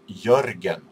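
The name is said with a Swedish pronunciation. "My name is in my language is pronounced Jörgen"

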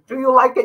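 It is asked in a harsh, commanding, military tone. The speaker calls it wrong. "It's not like a military"

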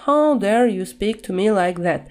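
It is said in a flat, bored way. The speaker does not sound upset at all. The speaker calls it wrong. "Нельзя такие фразы произносить вот так вот скучно"

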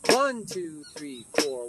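The numbers one and four are stressed. "Now I'm going to go to the 4, 1, which is the same as 1, 4"

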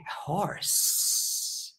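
It is said in a snake voice.

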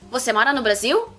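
The voice rises at the end like a question. It asks whether the listener lives in Brazil. "Pergunta. É só entonação"

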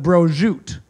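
It is said with Italian-American East Coast pronunciation.

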